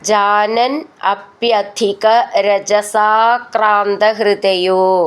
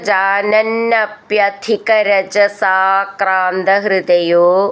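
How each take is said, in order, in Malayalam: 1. വാക്കുകൾ വേറെ വേറെയായിട്ടാണ് പറയുന്നത്, ചേർക്കാതെ. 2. വാക്കുകൾ ചേർത്ത് ഒറ്റ വാക്കാക്കിയാണ് പറയുന്നത്.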